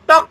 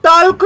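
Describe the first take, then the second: First: टॉक with a silent l, the right way; correct pronunciation. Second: टॉल्क with the l sounded, the wrong way; टॉल्क with a sounded l, as a mistake; wrong pronunciation demo. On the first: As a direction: say टॉक as tawk, no l. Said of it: "टॉक बोलते हैं". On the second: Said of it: "टॉल्क तो नहीं बोलते ना". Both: Shown as a demonstration.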